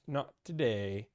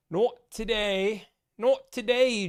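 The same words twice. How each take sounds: First: Said in the usual way. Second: Higher, louder British accent. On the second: Shown as a demonstration. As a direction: switch into a posh British voice for it. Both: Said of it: "Don't know why I did a British accent".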